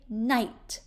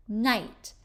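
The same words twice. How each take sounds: The two takes are said the same way.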